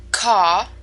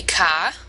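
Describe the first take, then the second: First: Said in the usual way. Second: "ka" with the R dropped, open ah vowel; New England r-dropping. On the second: Shown as a demonstration. Teacher demonstrating New England speech: "ka", no R. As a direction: say "ka" like car with no R at all. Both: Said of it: "car would be ka".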